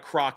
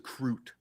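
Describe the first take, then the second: First: The word ends with a k sound. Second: The word ends with a t sound. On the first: The speaker calls it wrong. "It's not a croc" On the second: The speaker calls it right. "we have to say it right"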